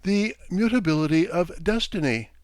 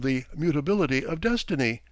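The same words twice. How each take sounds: First: High, mildly shrill sing-song voice; raised pitch with a chanting tune. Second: Said in the usual way. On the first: A narrator's reading. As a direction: lilt it like a recited stock phrase. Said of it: "said in a shrill voice, with a sing-song intonation".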